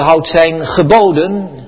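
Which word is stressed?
houd. The stress falls on the word houd. The focus is on obeying rules legalistically. The speaker calls it wrong. "We moeten niet lezen"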